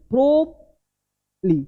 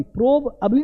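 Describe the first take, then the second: First: "प्रोबली" very slow, prob... lee; corrected pronunciation. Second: "प्रोबअबली" with a full ab, prob-ab-lee; wrong pronunciation. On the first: Teacher shows the middle barely sounded, corrected pronunciation. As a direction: hold prob high, then drop "lee" in "प्रोबली". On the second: Teacher rejects this take, wrong pronunciation. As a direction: sound every syllable of "प्रोबअबली" quickly. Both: Shown as a demonstration. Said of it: "प्रोबअबली नहीं".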